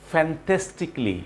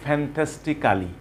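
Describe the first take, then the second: First: "fantastically" ending in "klee", slowly; correct pronunciation. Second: "fantastically" with a full "kaa-li" ending; common mispronunciation. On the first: Teacher models the word for learners, correct pronunciation. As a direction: say "fantastically" as "fan-TES-tik-lee". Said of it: "কালির পরিবর্তে বলতে হবে ক্লি". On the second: Teacher mimics what learners say, mispronunciation. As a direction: say "fantastically" as "fan-tes-ti-KAH-lee". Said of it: "আমরা বলি". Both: Shown as a demonstration.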